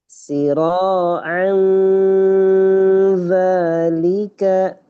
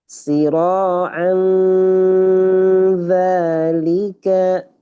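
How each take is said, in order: The two takes are said the same way.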